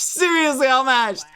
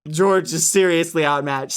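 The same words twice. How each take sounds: First: "Seriously outmatched" pitched high, falling steadily; emphatic repeat. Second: Said in the usual way. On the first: Real, not acted. Streamer hyping George's defeat, emphatic high "Seriously outmatched". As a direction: hammer home "Seriously outmatched" on a raised pitch.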